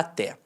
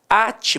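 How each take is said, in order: First: The stress is on the second syllable. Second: The stress is on the first syllable. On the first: It is the preposition meaning until. "é uma oxítona terminada em E" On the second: It is a command to tie something. "passou a ser uma paroxítona terminada em E"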